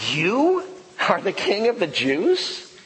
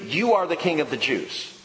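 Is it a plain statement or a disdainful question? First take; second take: disdainful question; statement. First: It is a cynical, disdainful question. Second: It is said as a plain statement.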